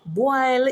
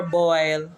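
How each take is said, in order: First: "Boil" said as "bwile"; Patois pronunciation. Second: "boil" with the oi vowel; English pronunciation. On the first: Translating a Patois word, "Boil" as "bwile". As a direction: say "Boil" with long I, rhyming with "mile". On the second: Giving the English equivalent, "boil" with oi. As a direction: say "boil" with a rounded oi glide. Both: Shown as a demonstration. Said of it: "Boil is for boil".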